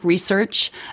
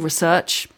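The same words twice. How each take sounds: First: The stress is on the first syllable. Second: The stress is on the second syllable. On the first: This is the American pronunciation. The speaker calls it wrong. "which is American research" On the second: This is the English pronunciation. The speaker calls it right. "It's actually research, the English version"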